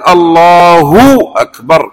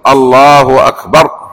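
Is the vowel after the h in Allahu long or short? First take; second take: long; short. First: The vowel after the h is stretched long. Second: The vowel after the h is short. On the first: The speaker calls it wrong. "يبالغون في الهاء فيخرجون الضمة كأنها واو" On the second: The speaker calls it right. "ولا بد يقول الله أكبر"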